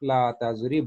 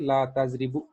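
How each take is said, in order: First: The last word ends on a bare consonant. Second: The last word ends with a short u vowel. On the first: The speaker calls it right. "बल्कि" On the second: The speaker calls it wrong. "नहीं कहेंगे"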